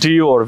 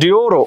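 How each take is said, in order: First: The word ends on the r sound. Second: The word ends with an extra vowel after r. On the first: The speaker calls it right. "তাহলে এটার উচ্চারণ হচ্ছে" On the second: The speaker calls it wrong. "আমি তো এটা পড়তাম ডিওরো"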